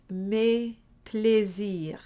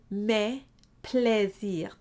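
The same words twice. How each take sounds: First: Mes plaisirs with eh darkened toward A, slow. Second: Mes plaisirs with a wide spread eh. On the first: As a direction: mes a bit rounded, not spread. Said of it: "put a bit of an A sound". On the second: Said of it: "be very careful not to do". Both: Shown as a demonstration.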